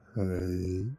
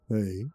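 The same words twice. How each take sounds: First: It is said breathier and more confidently. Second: It is said softly and politely.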